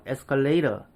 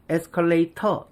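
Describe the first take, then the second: First: "에스컬레이터" said "escalay-rer"; T를 리을로. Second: "에스컬레이터" with a clear T in "터". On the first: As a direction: flap the T of "에스컬레이터" into R. ("에스컬레이터"를 "에스컬레이러"로) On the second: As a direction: keep the hard T in "에스컬레이터". ("에스컬레이터"의 ㅌ을 그대로) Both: Shown as a demonstration. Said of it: "T를 리을로 바꿔버린".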